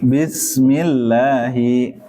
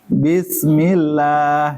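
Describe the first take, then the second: First: The s is a plain, light s sound. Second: The s is replaced by a different, altered sound. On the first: The speaker calls it right. "Bismillah itu kan pakai sin. Gini ya" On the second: The speaker calls it wrong. "Pakai pakai sa gini"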